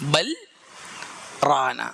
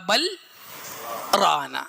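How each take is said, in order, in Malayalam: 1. രണ്ട് വാക്കുകൾക്കിടയിൽ ഒരു ചെറിയ നിശ്ശബ്ദ വിരാമമുണ്ട്. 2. രണ്ട് വാക്കുകൾക്കിടയിൽ ഒരു ചെറിയ നിശ്ശബ്ദ വിരാമമുണ്ട്.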